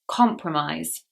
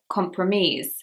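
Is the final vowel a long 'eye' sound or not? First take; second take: eye; not eye. First: The last syllable has the 'eye' diphthong. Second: The last syllable lacks the 'eye' diphthong. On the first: The speaker calls it right. "It's the I diphthong" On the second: The speaker calls it wrong. "I've heard this word said by students as compromise, but it's not that"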